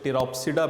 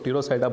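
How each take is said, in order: First: The p sound is clearly pronounced. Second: The p sound is left out entirely. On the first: "कुछ टिरोप्सिडा बोलते हैं इसको" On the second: "कुछ पीको silent जो करते हैं वो इसको टीरोसाइडा बोलते हैं"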